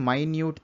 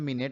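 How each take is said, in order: First: It is said 'my-newt', with an 'eye' vowel. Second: It is said 'min-it', with a short 'i' vowel. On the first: Something is very tiny. "పైన సెంటెన్స్లో ఎంఐఎన్యుటిఈ మైన్యూట్ అని పలికాను" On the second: It refers to sixty seconds of time. "కింద సెంటెన్స్లో మినిట్ అని పలుకుతున్నాం"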